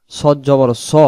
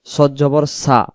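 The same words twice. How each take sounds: First: সদ জবর স ending in a thick "so"; heavy rounded vowel. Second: সদ জবর সা with an open, thin "a"; wrong light vowel. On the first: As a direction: round স to a full "o". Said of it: "সা পড়া যাবে না". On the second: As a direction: end on সা unrounded, as "saa". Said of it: "এখানে যদি আমরা বলি". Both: Shown as a demonstration.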